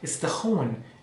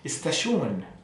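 First: The ending is said like 'hon', southern style. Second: The ending is said like 'shon', northern style.

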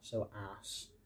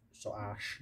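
First: The ending has an 's' sound. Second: The ending has a 'sh' sound. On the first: The speaker calls it wrong. "not so ass" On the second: The speaker calls it right. "the soas is pronounced soash"

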